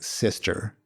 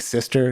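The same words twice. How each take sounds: First: It sounds heavy, serious and respectful. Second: It sounds light, casual and dismissive. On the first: She is accepted as part of the group. "later he adds like weight to it" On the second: The word is used as a put-down. "it's like sort of insulting"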